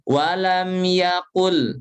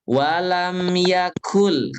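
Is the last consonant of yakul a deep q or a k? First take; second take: deep q; k. First: The word is said with a deep throaty q. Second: The word is said with a plain k. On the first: The speaker calls it wrong. "Jangan pakai qaf" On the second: The speaker calls it right. "itu pakai kaf"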